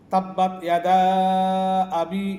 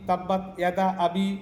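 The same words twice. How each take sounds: First: The vowel in yada is drawn out long. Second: The vowel in yada is cut short. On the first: The speaker calls it right. "ইয়াদা টান আছে" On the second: The speaker calls it wrong. "মদের জায়গায় না টেনে হরকত পড়া"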